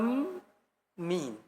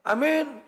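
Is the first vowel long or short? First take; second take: long; short. First: The first vowel is drawn out long. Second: The first vowel is short and clipped. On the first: The speaker calls it right. "Yang benar bacanya ya?" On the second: The speaker calls it wrong. "Karena ada orang amin"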